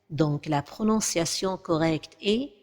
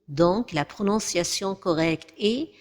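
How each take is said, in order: No difference in how they are said.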